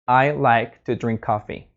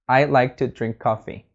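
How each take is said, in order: First: Each word is said separately, sounding robotic. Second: The same.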